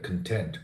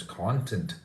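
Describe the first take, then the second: First: CONTENT stressed on the TENT, first vowel reduced; stress on second syllable. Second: CONTENT stressed on the CON, open first vowel; stress on first syllable. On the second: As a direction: say content as KON-tent. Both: Shown as a demonstration. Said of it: "little pronunciation can change the meaning".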